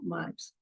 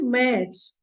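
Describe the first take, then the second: First: The vowel is a plain a sound. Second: The vowel is the umlaut ä sound. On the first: The speaker calls it wrong. "and not maths" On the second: The speaker calls it right. "So it is maths"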